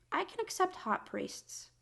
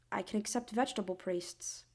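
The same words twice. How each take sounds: First: High-pitched, excited squeak. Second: Whispered, resigned. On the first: Building comic list. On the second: Mock resignation. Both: Real, not acted.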